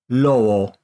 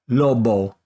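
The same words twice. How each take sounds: First: The lips stay apart for a soft b. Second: The lips close fully for a hard b. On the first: The speaker calls it right. "say it without touching" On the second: The speaker calls it wrong. "incorrectly say it by letting my lips touch to make the B"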